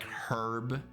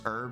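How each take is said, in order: First: The word starts with an audible H sound. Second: The word starts with a vowel, no H sound.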